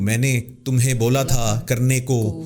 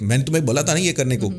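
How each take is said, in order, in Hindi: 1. यह धीरे से बोला गया है, हर शब्द पूरा। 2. यह जल्दी से बोला गया है, शब्द कटे हुए। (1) "आराम से तहम्मुल से बोलूँ" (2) "बहुत जल्दी में बोलते हैं, सो वी कट वर्ड्स"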